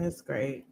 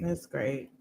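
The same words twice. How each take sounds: First: It sounds fake and unenthusiastic. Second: It sounds fake and unenthusiastic.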